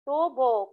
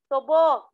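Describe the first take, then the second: First: The stress is not on the last syllable. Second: The stress is on the last syllable. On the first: It means a pipe. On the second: It means sugar cane.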